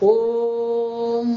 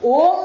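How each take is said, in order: First: The vowel is held for three beats. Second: The vowel is short and quick. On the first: The speaker calls it right. "ત્રણ છે" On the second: The speaker calls it wrong. "ઓમ નથી બોલવાનું"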